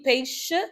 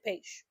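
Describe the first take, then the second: First: The final vowel is clearly pronounced. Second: The final vowel is dropped. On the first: This is the form it is supposed to have. "Usually it's supposed to be peixe" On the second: This is how people usually say it. "we don't pronounce the last vowel at the end of words, so we just say peixe"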